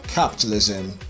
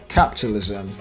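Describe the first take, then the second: No difference in how they are said.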